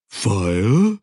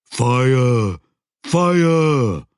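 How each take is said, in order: First: A puzzled creature asking one word; troll voice, questioning. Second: High, loud creature bellow of alarm; a troll yelling a warning; loud troll shout. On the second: Troll urgently warning Joshua. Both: Acted.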